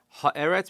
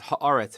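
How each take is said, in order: First: The second vowel is an e sound. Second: The second vowel is an a sound. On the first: This is the ordinary form of the word. "even though the word is normally eretz" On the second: The word stands at the end of a verse. "becomes ha'aretz if it's at the end of a pasuk"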